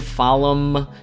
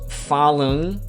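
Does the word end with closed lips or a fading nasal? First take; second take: closed lips; fading nasal. First: It ends with a full M, lips closed. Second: It ends with a soft nasal that fades. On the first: The speaker calls it wrong. "Don't say falam" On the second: The speaker calls it right. "kind of like an N sound that disappears"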